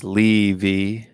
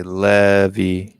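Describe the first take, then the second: First: "Levy" with a long ee first syllable; Levy as LEE-vee. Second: "Levy" as LEH-vee, short e, drawn out; American-style Levy. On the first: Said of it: "Then Mister K says". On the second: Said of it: "here in America, they say". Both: Shown as a demonstration.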